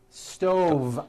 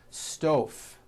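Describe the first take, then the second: First: The final consonant is voiced, like V. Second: The final consonant is unvoiced, like F. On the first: The speaker calls it right. "I should have said stove" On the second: The speaker calls it wrong.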